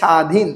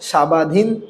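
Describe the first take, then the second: First: No 'b' sound is pronounced after the s. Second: A 'ba' sound is pronounced after the s. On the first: The speaker calls it right. "কি বলেন? স্বাধীন।" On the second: The speaker calls it wrong. "এখানে কি আপনি বলেন সাবাধীন? ... সাবাধীন বলেন না"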